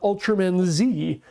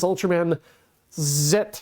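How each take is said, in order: First: The final letter is said as zee. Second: The final letter is said as zett. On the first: The speaker calls it wrong. "this is not the American pronunciation. It's not Ultraman Z" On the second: The speaker calls it right. "It is Ultraman Z"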